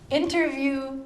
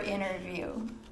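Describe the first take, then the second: First: The t sound in the middle is pronounced. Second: The t is dropped, sounding like inner. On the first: A conversation where someone answers questions. "an interview is kind of like what we're doing" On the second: Looking inward through introspection. "or inner view"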